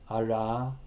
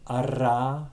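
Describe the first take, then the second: First: The r sound is a variant, not trilled. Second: The r sound is a rolled trill. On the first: "Indicated in brackets is a variant of it" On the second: "The normal trill would be ra"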